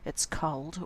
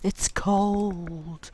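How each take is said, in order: First: The word cold is said in a plain tone. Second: The word cold is drawn out with strong emphasis. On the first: It is cold. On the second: It is very cold.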